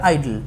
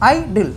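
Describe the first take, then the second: First: Said in the usual way. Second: "আইডল" broken in two, i-dl; split into syllables. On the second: Shown as a demonstration. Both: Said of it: "দুটো করে ভেঙে যাচ্ছে".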